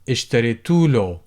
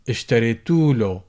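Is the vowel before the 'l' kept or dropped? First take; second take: dropped; dropped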